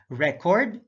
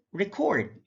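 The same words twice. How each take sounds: First: RECord, short open REC, rising; careful demo of RECord; stress on first syllable. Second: ReCORD, high falling CORD; careful demo of reCORD; stress on second syllable. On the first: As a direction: say "record" as REK-ord. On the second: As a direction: say "record" as rih-KORD. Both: Shown as a demonstration. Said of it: "stress is the verbal emphasis used".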